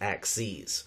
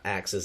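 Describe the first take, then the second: First: The word ends with a long 'eez' sound. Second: The word ends with a short 'iz' sound. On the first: It is the plural of axis. The speaker calls it right. "A X E E Z" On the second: It is the plural of the cutting tool. The speaker calls it wrong. "it's not axes"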